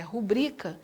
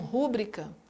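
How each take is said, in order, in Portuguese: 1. A primeira sílaba não é tônica. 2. A primeira sílaba é tônica. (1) "a pronúncia correta é rubrica" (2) "A sílaba tônica não é o R U"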